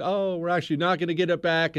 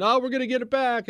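First: Quick, less excited correction; imitating disappointed supporters; mock let-down. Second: High-pitched, quick burst of optimism; imitating hopeful supporters; mock hopeful. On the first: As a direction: act out hope deflating, still hurried. Acts out hopes being let down. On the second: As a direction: act out eager hope, fast and pitched up. Acts out post-election hopes.

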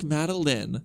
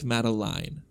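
First: Madeline said with a short final "lin"; correct name pronunciation. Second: Madeline said with "line" at the end; spelling pronunciation. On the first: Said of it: "It's pronounced like". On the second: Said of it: "but spelled like". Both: Shown as a demonstration.

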